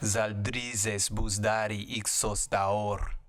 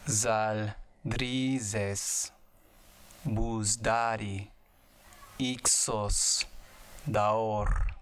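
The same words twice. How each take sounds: First: It is said at normal speed. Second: It is said slowly.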